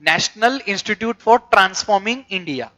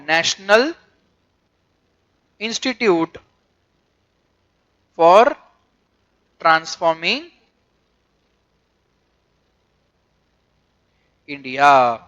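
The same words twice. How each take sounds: First: Said in the usual way. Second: Long pauses after National, Institute, for and Transforming; each word set apart, India dropping low at the end; word-by-word dictation. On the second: Shown as a demonstration. Dictating full form word by word.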